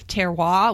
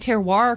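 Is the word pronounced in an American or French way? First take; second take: French; American. First: It is pronounced the French way, rhyming with noir. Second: It is pronounced the American way. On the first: "the proper French approach, like noir" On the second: "We say terroir because we're Americans"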